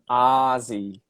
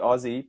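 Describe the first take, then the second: First: The first vowel sounds like 'ah'. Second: The first vowel sounds like 'oh'. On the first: "the vowel sound in the word hot" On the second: "we do say the vowel sound oh"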